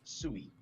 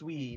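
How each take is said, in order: First: It is said as two syllables, like 'soo-ee'. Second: It is said as one syllable, like 'sweet'. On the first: The speaker calls it wrong. "not Sui" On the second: The speaker calls it right. "it's pronounced Sui"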